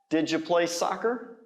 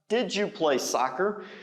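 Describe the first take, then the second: First: Did and you blend together, said fast. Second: Did and you are said as separate words.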